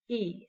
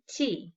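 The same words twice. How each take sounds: First: "T-E" as two separate sounds; segmented sounds. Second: Said in the usual way. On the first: Shown as a demonstration. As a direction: break "T-E" into a bare t, then a long ee. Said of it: "into two different sounds". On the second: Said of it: "The word is".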